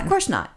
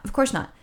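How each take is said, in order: First: Said in the usual way. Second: "Of course not" said higher, with a wry knowing lift; knowing emphasis. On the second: Real, not acted. Agreeing with her friend the repair is a scam, "Of course not" wry and knowing. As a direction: repeat "Of course not" as if it was obvious all along.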